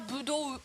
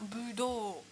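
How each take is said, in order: First: The final o vowel is short. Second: The final o vowel is held long. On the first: The speaker calls it wrong. "Et non pas budo" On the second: The speaker calls it right. "mais bien budo"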